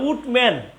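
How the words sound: The name is said with a T sound.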